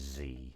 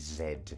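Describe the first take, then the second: First: The letter is pronounced zee. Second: The letter is pronounced zed. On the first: This is the form the Japanese do not use by default. "they don't say Z" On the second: This is the British form the Japanese use. "the Japanese do say Z"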